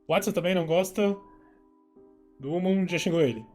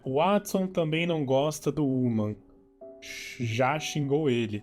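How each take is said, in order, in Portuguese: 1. Ela é lida muito rápido, com as palavras emendadas. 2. Ela é lida em um ritmo normal e uniforme.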